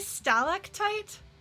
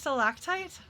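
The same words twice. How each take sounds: First: The stress is on the first syllable. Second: The stress is on the second syllable. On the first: This is the guessed British pronunciation. "do they say stalactite" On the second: This is the pronunciation the speaker is used to. "instead of stalactite?"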